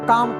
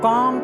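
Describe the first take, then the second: First: The word is pronounced clearly and fully. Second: The word is pronounced unclearly and carelessly. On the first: The speaker calls it right. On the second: The speaker calls it wrong.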